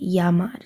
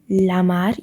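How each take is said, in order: First: The word begins with a Y sound. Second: The word begins with an L sound. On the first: The speaker calls it right. "you say llamar. So the double L is pronounced as a Y" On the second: The speaker calls it wrong. "you don't say lamar"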